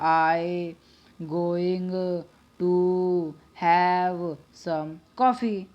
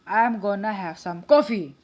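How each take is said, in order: First: Going to is said in full. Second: Going to is reduced to gonna. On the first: British or formal style. "अगर हम अपनी British वाले में करें" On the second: Casual everyday speech. "गोना का मतलब होता है गोइंग टू"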